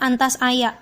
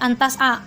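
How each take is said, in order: First: The verb ends with an extra 'ya' syllable. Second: The verb ends on a plain long 'a'. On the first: The speaker calls it wrong. "jangan ngomong antas aya, salah" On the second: The speaker calls it right. "tetap bilang aja antas a"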